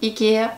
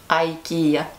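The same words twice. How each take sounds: First: It is pronounced in the Russian way. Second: It is pronounced in the English way.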